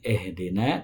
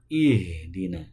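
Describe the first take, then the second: First: The first vowel sounds like e. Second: The first vowel sounds like i. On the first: The speaker calls it wrong. "Bukan ehdina" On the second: The speaker calls it right. "tapi ihdina"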